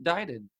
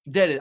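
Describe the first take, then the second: First: "deaded" said as "died-ed"; mispronounced. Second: "Deaded" said as "ded-ed"; corrected pronunciation. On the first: Host fumbling the caller's word, mispronounced. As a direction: say "deaded" with a long "die" vowel. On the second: Host correcting himself after the caller, pronounced right. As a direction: say "Deaded" with a short e, louder. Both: Real, not acted. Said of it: "I mispronounced that".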